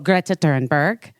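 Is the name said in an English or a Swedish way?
Swedish. The name is said with a Swedish pronunciation. This is how a native speaker says it. The speaker calls it right. "That's how you say it, I guess"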